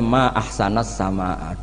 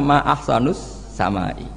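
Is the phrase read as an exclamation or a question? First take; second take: exclamation; question. First: The phrase is read with exclamation-form vowel endings. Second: The phrase is read with question-form vowel endings. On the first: It marvels at how beautiful the sky is. The speaker calls it right. "Mestinya bacanya ma ahsanas sama, duhai begitu indah" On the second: It asks what the most beautiful thing in the sky is. The speaker calls it wrong. "Tapi dia bacanya ma ahsanus samai"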